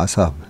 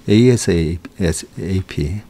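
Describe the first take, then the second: First: It is said as one short word. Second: It is spelled out letter by letter. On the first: "우리는 이걸 더 줄여서 그냥 아삽" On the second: "에이에스에이피 이렇게도 많이 얘기하는데"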